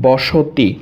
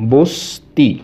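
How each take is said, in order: First: A vowel is heard between s and t. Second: No vowel is heard between s and t. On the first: "স এর সাথে একটা অ ছিল" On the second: "দন্তর সাথে অ নাই"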